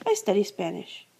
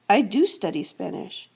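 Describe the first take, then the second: First: Said in the usual way. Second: "do" punched, "I do study Spanish" with the weight on "do"; stress on do. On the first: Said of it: "It's emphasizing the fact". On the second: Shown as a demonstration. Teacher showing students the emphatic meaning, stress on "do". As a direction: lean hard on the word "do". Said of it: "It's emphasizing the fact that I study Spanish".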